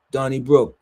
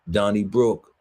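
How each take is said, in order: First: Donnybrook said higher and louder; emphatic repeat. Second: Said in the usual way. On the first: Shown as a demonstration. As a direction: belt out Donnybrook with gusto. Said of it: "second take louder and higher". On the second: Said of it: "repeated with emphasis".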